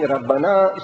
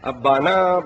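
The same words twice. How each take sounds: First: "Rabbana" opening on a clear R; word as imagined. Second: "Abbana" opening on the vowel, no R; word as written. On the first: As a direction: say "Rabbana" with R in front. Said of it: "I'm thinking". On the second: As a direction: say "Abbana" with a long held "baa". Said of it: "You reading from your head". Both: Retold or imitated.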